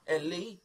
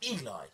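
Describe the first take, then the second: First: The name is said like the girl's name Ellie. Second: The name is said as Eli. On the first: The speaker calls it wrong. "He's like" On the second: The speaker calls it right. "I'm like, Eli. It's Eli"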